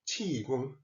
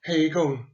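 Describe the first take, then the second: First: The word is said with Mandarin pronunciation. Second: The word is said with Cantonese pronunciation. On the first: "In Mandarin, it is pronounced as Qigong" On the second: "Heigong is a Cantonese pronunciation"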